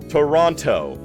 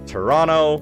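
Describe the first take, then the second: First: Said the way an American sportscaster says it. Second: Said the way a city local says it. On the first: The speaker is an outsider. "You're an American sportscaster" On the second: The speaker lives in the city. "You're a Torontonian"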